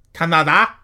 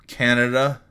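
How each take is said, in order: First: High, loud, mock French accent with broad A's; terrible French accent. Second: Said in the usual way. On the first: Podcaster names listeners' country, hammed-up terrible French accent. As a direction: badly fake a French accent, rising at the end. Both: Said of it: "That's a terrible accent".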